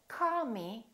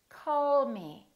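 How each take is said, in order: First: The L in call is dropped. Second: The L in call is clear and prolonged. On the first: The speaker calls it wrong. "So don't say call me" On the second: The speaker calls it right. "say call me"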